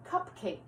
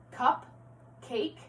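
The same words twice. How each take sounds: First: Said in the usual way. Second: "Cup, cake" as two separate words with a clear pause between; segmented compound. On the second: Shown as a demonstration. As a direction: pull "Cup, cake" apart for the class. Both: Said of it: "going back to compound words".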